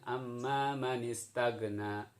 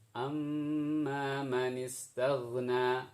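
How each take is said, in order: First: The consonant is a hard plain g sound. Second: The consonant is a soft throaty gh sound. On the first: The speaker calls it wrong. "itu yang salah" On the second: The speaker calls it right. "ghain ya"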